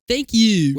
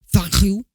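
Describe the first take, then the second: First: It is said in the speaker's plain accent. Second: It is said in a put-on French accent.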